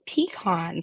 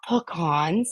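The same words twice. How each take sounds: First: The first syllable sounds like 'pee'. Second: The first syllable does not sound like 'pee'. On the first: The speaker calls it right. "it's pecans, like peekaboo" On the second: The speaker calls it wrong. "It's not pecans"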